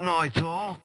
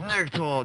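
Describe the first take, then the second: First: The first word sounds like 'Nike', with two syllables. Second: The first word sounds like 'Nick', with a short vowel. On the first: The speaker calls it wrong. "not Nike Thor" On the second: The speaker calls it right. "my name's Nick Thor"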